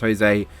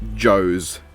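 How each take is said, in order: First: The name begins with an h sound. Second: The name begins with a j sound. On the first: The speaker calls it right. "I'm going to assume it's pronounced Jose" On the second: The speaker calls it wrong. "and not Joe's"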